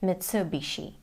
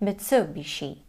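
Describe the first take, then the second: The two takes are said the same way.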